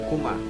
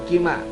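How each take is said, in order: First: The first vowel is a 'u' sound. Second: The first vowel is an 'i' sound. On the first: The speaker calls it right. "dalam keadaan jar sama dibacanya kuma" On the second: The speaker calls it wrong. "bukan kima"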